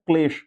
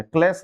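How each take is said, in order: First: क्लेश ending in "sh"; correct sh ending. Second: क्लेश ending in a plain "s"; wrong s ending. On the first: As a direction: say क्लेश as "klesh". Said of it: "क्लेश बिल्कुल सही है". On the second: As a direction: say क्लेश as "kles". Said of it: "क्लेश नहीं है". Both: Shown as a demonstration.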